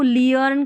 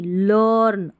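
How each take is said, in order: First: The vowel is a two-part 'ee-ur' sound. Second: The vowel is a single 'ur' sound. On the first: The speaker calls it wrong. "इसको लियर्न करके नहीं" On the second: The speaker calls it right. "लर्न अर करके पढ़ा गया है"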